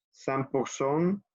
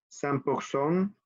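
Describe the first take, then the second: First: Cent pour cent said slowly, sam pur son; francés despacio; slow French. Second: Cent pour cent slowly with French r; francés lento. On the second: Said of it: "Ok, repetimos". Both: Shown as a demonstration.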